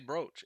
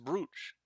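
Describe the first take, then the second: First: The vowel rhymes with roach. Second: The vowel does not rhyme with roach. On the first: The speaker calls it wrong. "Say brooch like roach? No, I'm not gonna say" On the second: The speaker calls it right. "It's brooch"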